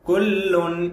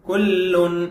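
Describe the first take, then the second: No difference in how they are said.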